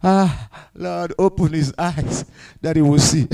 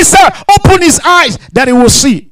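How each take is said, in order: First: Soft, low, unhurried prayer; calm, hushed request to God; relaxed. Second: High, emphatic bold request; raised, assured preacher's voice; confident. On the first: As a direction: murmur it like a man totally at ease. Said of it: "The man of God relaxed". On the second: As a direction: declare it with full confidence. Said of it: "He had confidence and he said". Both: Retold or imitated.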